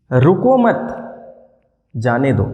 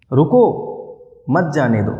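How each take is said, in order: First: "रुको मत" together, long pause, then "जाने दो" falling lower; pause after मत. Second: "रुको" alone and rising, long pause, then "मत, जाने दो" falling; pause after रुको. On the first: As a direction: break the sentence after मत, not after रुको. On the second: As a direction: break the sentence right after रुको. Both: Shown as a demonstration. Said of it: "बीच में एक pause लिया".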